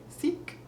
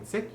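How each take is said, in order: First: SEEK with a French "ee" vowel; French-accented sick, vowel turned to "ee"; short I as E. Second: Said in the usual way. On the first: Shown as a demonstration. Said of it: "you'd wanna say seek". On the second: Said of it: "Instead of saying sick".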